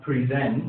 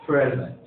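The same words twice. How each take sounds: First: "present" as a verb, pri-ZENT; slow, careful "present" with strong second syllable; second-syllable stress. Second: "present" as a noun, PREZ-ent; slow, careful "present" with strong first syllable; first-syllable stress. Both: Shown as a demonstration. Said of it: "but different pronunciations?".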